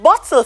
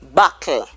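First: The middle consonant is a t sound. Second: The middle consonant is a k sound.

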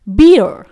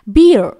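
First: It is American, with a final r sound. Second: The same.

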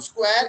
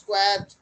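First: The word ends without a final d sound. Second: The word ends with a clear final d sound. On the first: The speaker calls it wrong. "It's not square" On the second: The speaker calls it right. "it's squared"

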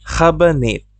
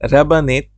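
First: The first r sound is throaty, from the throat. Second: The first r sound is a plain r. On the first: "আর এর উচ্চারণটা আমি যেভাবে করতেছি" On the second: "আপনি চাইলে রাবানেত বলতে পারেন"

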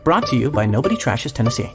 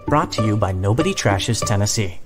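First: The ending is said in a rush. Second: The ending is said without rushing.

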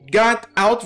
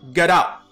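First: The two words are said separately. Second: The two words are linked into one.

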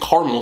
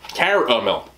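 First: The middle vowel is dropped, giving two syllables. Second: The middle vowel is pronounced, giving three syllables. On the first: The speaker calls it wrong. "I think caramel sounds ridiculous" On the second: The speaker calls it right. "there's an A in caramel"

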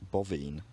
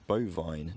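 First: The vowels have Romance-language sounds. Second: The vowels have the English long sounds. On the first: "not bovine"

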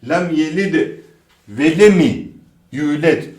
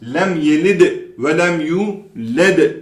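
First: An extra i vowel follows lem before yület. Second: Lem runs straight into yület with no vowel. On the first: The speaker calls it wrong. "Bu da yok arkadaşlar. Hızlı okunduğunda i eklenebiliyor" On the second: The speaker calls it right. "şeklinde okuyoruz"

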